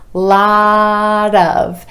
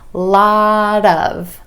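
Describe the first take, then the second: First: The t is a flap linked onto of. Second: The t is a flap linked onto of.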